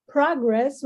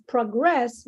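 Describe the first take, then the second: First: PROgress, the noun, stressed at the front; stress on first syllable. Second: ProGRESS, the verb, stressed at the end; stress on second syllable. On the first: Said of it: "which is noun". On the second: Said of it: "which is verb". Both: Shown as a demonstration.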